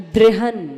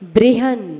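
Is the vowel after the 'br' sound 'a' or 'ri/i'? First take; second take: ri/i; ri/i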